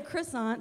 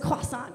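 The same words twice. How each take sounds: First: It has a plain English-style r sound. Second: It has a French-style throaty r sound. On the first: The speaker sounds ordinary. The speaker calls it right. "So you say croissant so you don't spit on the girl at Starbucks" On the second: The speaker sounds pretentious. The speaker calls it wrong. "It's like a throat clearing thing, kind of like croissant. But nobody says croissant because you sound like a total D-bag when you say it like that"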